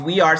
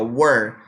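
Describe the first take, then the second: First: The two words are said as separate syllables. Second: The two words merge into one syllable. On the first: "Em vez de we are" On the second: "você pode pronunciar were"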